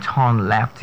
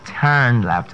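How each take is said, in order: First: "turn" said as torn; mispronounced turn. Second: "turn" said as tern, slowly; correct pronunciation. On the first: Coach showing what you don't say, mispronunciation. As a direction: say "turn" with an aw vowel, "turn left" as torn left. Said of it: "You don't turn left". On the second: Coach correcting how to say turn left, correct pronunciation. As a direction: say "turn" with a clear er vowel. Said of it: "you turn left or you turn right". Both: Shown as a demonstration.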